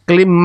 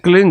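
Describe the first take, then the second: First: The word ends with an m sound. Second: The word ends with an ng sound. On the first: The speaker calls it wrong. "क्लिम मैं नहीं" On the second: The speaker calls it right. "अंग का उच्चारण होना पड़ेगा"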